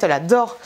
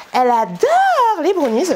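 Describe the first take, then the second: First: Said in the usual way. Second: Adore stretched out, high and louder; gushing emphasis on adore. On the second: Real, not acted. Telling viewers her daughter loves brownies, adore drawn out high and loud. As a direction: lean into adore, drawn out slowly.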